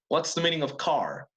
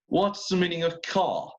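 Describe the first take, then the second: First: It is said in an American English accent. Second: It is said in a British English accent. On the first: "in American English" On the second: "let's go back to British English"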